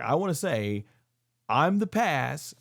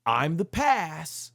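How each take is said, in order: First: Lightly voiced slow proclamation, dragging the words; a hint of a grave wrestler pronouncing his verdict; quoting Brock Lesnar. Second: Slower, weightier retake of the line; quoting Brock Lesnar. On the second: Retold or imitated. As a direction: draw out past like a final verdict. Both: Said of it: "he goes like".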